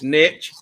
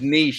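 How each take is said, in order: First: It is said in a Southern US accent. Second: It is said in a standard, non-Southern accent.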